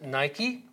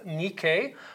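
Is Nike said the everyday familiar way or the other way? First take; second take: familiar; other. First: It is said the everyday familiar way. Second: It is said the less familiar way. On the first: This is how people today usually say it. "or as we pronounce it" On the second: This is the goddess's own name. "the goddess called Nike"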